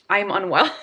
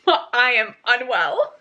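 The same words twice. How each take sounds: First: Said in the usual way. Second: Said through a laugh, slowed down. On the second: Real, not acted. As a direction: laugh it out in disbelief. Reacting to the shocking chapter.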